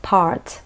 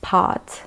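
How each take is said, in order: First: "part" with the R sounded; American "part", tongue curled on the R. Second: "part" with no R, like "paht"; British "part", long vowel straight into T; British silent R. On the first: Showing likely American English version, rhotic R. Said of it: "in American English". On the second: Showing the British English version, R left silent. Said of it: "in British English, it is pronounced". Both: Shown as a demonstration.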